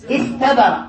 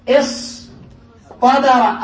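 First: استبر pronounced with a plain t; light tāʾ. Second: اصطبر very slow, long pause before the heavy ṭ; emphatic ṭāʾ. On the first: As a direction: say استبر with a clear, unemphatic ت. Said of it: "بالتاء". (نطق استبر بتاء مرققة) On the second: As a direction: say اصطبر in two parts with an emphatic ط. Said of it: "أبدلوا بدل التاء". (نطق اصطبر ببطء بطاء مفخّمة) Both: Shown as a demonstration.

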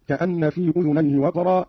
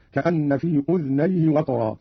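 First: Said in the usual way. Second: أذنيه as udhnayhi; slow, with a vowelless dhal in أذنيه; Qalun reading. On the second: Shown as a demonstration. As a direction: close the first syllable of أذنيه on dh. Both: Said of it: "أسكن الذال قالون هكذا".

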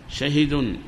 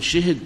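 First: شهد as "shahidun"; short a then short i in شهد; base dialect form. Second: شهد as "shihid"; short i in both syllables of شهد; fourth dialect form. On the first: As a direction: say شهد as sha-hi-dun. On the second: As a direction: say شهد as shi-hid. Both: Shown as a demonstration. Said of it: "تزيد الرابعة هذه".

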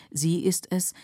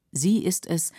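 The two takes are said the same way.

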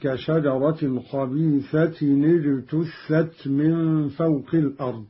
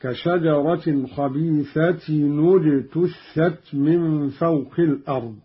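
First: خبيثة recited as khabīthatin ijtuththat; خبيثة tanween with kasra. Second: خبيثة recited as khabīthatun ujtuththat; خبيثة tanween with damma; Qalun damma on tanween. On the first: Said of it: "قرأ قالون بضم أولى الساكنين". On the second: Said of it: "وهو التاء هكذا". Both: Shown as a demonstration.

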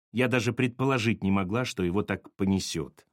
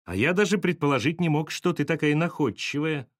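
First: Contrite voice, sinking lower at the end; subdued apology. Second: Lifted, higher-pitched merry voice; cheerful reply. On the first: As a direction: apologise sheepishly. Sasha apologises, abashed. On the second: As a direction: answer her merrily, with admiration. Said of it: "ответил Чернов весело". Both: A narrator's reading.

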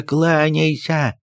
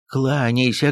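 First: Higher, slow drawn-out order; slow insistent command. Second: Urging command. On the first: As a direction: drag it out as a scolding demand. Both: Acted. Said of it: "кинулся на него приказчик".

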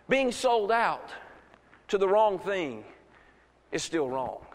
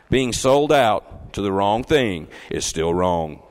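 First: Measured, spaced phrases. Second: Loud, low and slow, weighing each word; emphatic repeat. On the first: First take, spaced for listeners. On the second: Preacher repeats his point to the church, emphatic. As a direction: drive it home in a slow, deep, loud voice. Repeats it after checking they heard. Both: Real, not acted.

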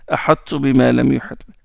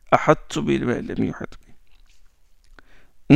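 First: Said in the usual way. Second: Slow, soft ahattu bima lam yuhit bi; slow demo. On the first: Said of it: "demonstrates example". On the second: Shown as a demonstration. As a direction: stretch out each syllable gently. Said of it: "slow demo repetition".

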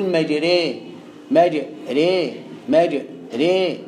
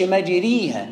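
First: مجري as "majrē", vowel stopping short of a ya; low, slow, drawn-out مجري with the vowel between a and i; correct imala. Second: مجريها with a pure long "ī", "majrīha"; full ya, as mistake. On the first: Teacher modelling the right way, imala on مجري. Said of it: "تقول". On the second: Teacher showing what not to say, مجريها with full ya. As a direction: push مجريها all the way to an i vowel. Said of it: "ما تقولش". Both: Shown as a demonstration.

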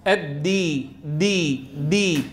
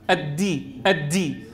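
First: الدي, دي low, with a hard voiced "d"; strong voiced dal. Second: الدي with an aspirated, "t"-like د, pitched lower; whispered dal. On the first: Teacher models it properly, firm voiced د in الدي. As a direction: stop the breath fully on د in الدي. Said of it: "هكذا صوت الدال الشديدة المجهورة". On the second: Teacher shows a common mistake, breathy د in الدي. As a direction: let breath leak on the د of الدي. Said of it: "ينطقها مهموسة". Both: Shown as a demonstration.

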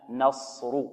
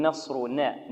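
First: نصر with a plain open nun; correct nun. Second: نصرنا with the nun bent toward an i sound; wrong tilted nun. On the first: Shown as a demonstration. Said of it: "خطأ، لا". (نون مفتوحة صحيحة في نصر) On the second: Retold or imitated. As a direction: imitate the student who tilts the nun in نصرنا. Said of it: "يقول... خطأ". (إمالة النون خطأ في نصرنا)

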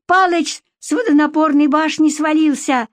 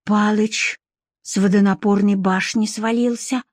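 First: High-pitched alarmed cry; shrill yelling. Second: Thoughtful. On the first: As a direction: yell the news shrilly. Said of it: "визгливо завопила вторая тётка". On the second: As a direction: repeat it pensively, pausing after the name. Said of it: "задумчиво повторила Варя". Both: Acted.

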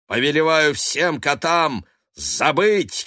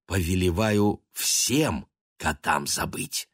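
First: "повелеваю всем котам забыть" shouted high and slow, stress on забыть; loud incantation. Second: Said in the usual way. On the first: Acted. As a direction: command it like a sorcerer. Curse spell cast. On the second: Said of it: "он сказал".

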